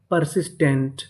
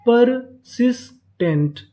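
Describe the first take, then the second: First: Said in the usual way. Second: persistent slowly split as पर, सिस, tent, stepping down; syllable by syllable. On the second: Shown as a demonstration. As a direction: sound out persistent in three higher-pitched parts. (Persistent को रुक-रुककर तीन हिस्सों में) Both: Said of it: "तो पूरी meaning क्या बनी".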